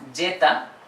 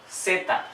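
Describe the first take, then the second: First: The word begins with a J-like sound. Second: The word begins with an S-like sound. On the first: The speaker calls it wrong. "not Jeta" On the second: The speaker calls it right. "Like S"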